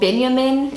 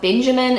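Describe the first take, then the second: First: The name is said with a German pronunciation. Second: The name is said with an English pronunciation. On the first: "in German" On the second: "in English"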